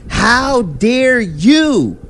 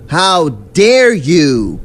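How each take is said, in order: First: Much higher, slow, exaggerated indignation; high mock outrage. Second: Slow, drawn-out, louder mock indignation; mock outrage. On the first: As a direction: leap way up in pitch and drag it like a caricature. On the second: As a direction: stretch it out like a fake-offended diva. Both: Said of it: "I take offense to that and say".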